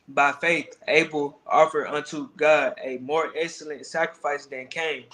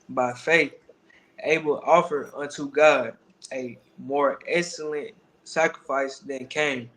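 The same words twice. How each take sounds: First: It is read at a faster pace. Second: It is read at a slower pace.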